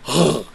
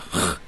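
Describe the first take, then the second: First: The throat sound is made with voice. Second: The throat sound is made without voice. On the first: "but the kh sound" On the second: "It's not the kh sound"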